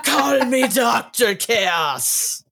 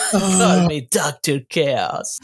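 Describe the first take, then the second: First: Dramatic villain voice. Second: Giggling villain line; can't keep a straight face; laughing through it. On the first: Reading villain line, laughing. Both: Retold or imitated.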